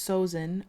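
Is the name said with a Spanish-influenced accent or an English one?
English. The name is said with an English-style accent. "but if it's Sozin"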